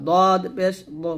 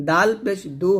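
First: দো with a heavy d and rounded "o"; thick dad. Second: দু with a light tongue-tip d and "oo"; thin dal. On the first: Teacher contrasting it with dal, heavy d in দদ পেশ দো. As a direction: thicken দদ and দো from the tongue's side. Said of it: "মোটা করে". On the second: Teacher contrasting two letters, thin d in দাল পেশ দু. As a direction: keep দাল and দু thin, tongue on front teeth. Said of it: "দাল পাতলা করে". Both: Shown as a demonstration.

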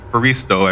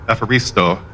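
First: "Faristo" with the first syllable dropped, starting on Fa; father's wrong version. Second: "Epharisto" said in full, with the opening E; correct Greek word. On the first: Retold or imitated. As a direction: clip it to "Faristo" the way dad said it. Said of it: "he always just said". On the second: Shown as a demonstration. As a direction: give the whole Greek "Epharisto," starting on E. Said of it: "how to say the word for thank you".

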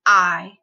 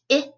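First: I as long "eye", as in ride. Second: I as short "ih", as in rid. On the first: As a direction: say I as a full "eye" vowel. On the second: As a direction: say I as a brief "ih" sound. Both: Shown as a demonstration. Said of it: "changing a short sound to a long sound".

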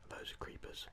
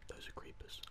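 The two takes are said the same way.

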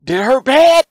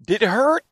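First: Much higher and louder gleeful taunt; little brother gloating over the whooping. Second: Put-on high, sing-song kid-brother question; little brother asking if the whooping hurt; teasing little brother. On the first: Retold or imitated. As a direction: rub it in with delight. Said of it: "And Dorian". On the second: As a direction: poke at him innocently. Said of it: "I said".

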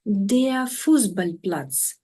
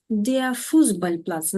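First: "Fußballplatz" pulled apart very slowly, part by part; slow spelling-out model of the compound; slow syllable by syllable. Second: "Fußballplatz" said whole, with the stress on "Fuß"; stressed first part "Fuß", compound said as one word; stress on FUSS. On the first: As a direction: build "Fußballplatz" slowly from its pieces. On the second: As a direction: hit "Fuß" in "Fußballplatz" and run the rest on. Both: Shown as a demonstration. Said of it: "Наголос на першому описовому слові".

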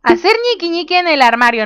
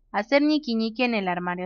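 First: High, incredulous read-out; higher-pitched startled read. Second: Soft, settled read-out; softer, matter-of-fact reading; composed re-reading. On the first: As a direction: blurt it out in amused disbelief. Startled misreading of game option. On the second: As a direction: read it quietly, composure regained. Calmer re-reading of the same option. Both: Real, not acted.

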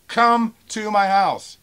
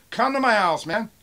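First: Very slow, high, loud challenge; real pissed-off shout. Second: Loud, high angry challenge; real pissed-off shout. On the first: Seller daring a threatening buyer, slow angry shout. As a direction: stretch out each word as you shout. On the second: Seller challenging a threatening buyer, angry shout. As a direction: shout the dare in one quick burst. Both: Real, not acted. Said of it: "Now I'm pissed off reading this".

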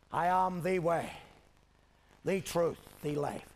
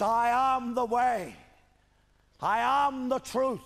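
First: "the" said as "thee", deliberately, before "way", "truth" and "life"; stress on THE. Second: Loud, high, stretched-out declaration; proclaimed scripture. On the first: Shown as a demonstration. Preacher pointing out the one way, "the" stressed as "thee". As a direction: pause between phrases, each "the" a clear "thee". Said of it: "I point out tonight". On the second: Retold or imitated. Preacher quoting what he says of himself, loud proclamation. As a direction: proclaim "I am the way" to the whole hall.

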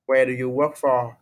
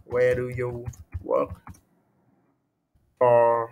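First: Said in the usual way. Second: Word by word, with a long pause before "for"; halting writing-along pace; slow dictation. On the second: Shown as a demonstration. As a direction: dictate slowly while writing it out, holding back the last word. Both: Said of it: "đây, đây em viết này".

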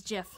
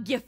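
First: Gif with a soft g, like "jif". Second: Gif with a hard g, laughing. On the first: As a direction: start gif with a j sound. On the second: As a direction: start gif with the g of gift. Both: Shown as a demonstration. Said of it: "a whole episode on gif versus gif".

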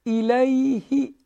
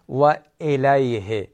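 First: الیه with a clear long-free i, high and slow; Arabic i. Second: و الیه with a Persian e instead of i; Persian-style kasra. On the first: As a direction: say the kasra in الیه as i. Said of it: "کسره رو ای بگیم". (کسرهٔ عربی ای در الیه) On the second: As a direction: show the wrong e in الیه. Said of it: "نگیم". (کسرهٔ فارسی نادرست) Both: Shown as a demonstration.

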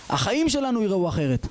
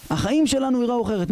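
First: Said in the usual way. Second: החיים raised higher and pushed, whole line preached up; preacher lifts החיים high for emphasis; emphatic repeat. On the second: Shown as a demonstration. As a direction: drive home החיים שלנו יראו אחרת with rising fervour. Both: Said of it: "repeated for emphasis".

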